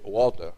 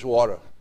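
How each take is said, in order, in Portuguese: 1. É dito com sotaque britânico. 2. É dito com sotaque americano. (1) "na Inglaterra você pede água, você pede water" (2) "Nos Estados Unidos o pessoal diz water"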